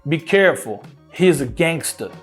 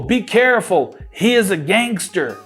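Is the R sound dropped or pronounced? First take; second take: dropped; pronounced. First: The R sounds are dropped. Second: The R sounds are pronounced. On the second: "ao invés de falar assim"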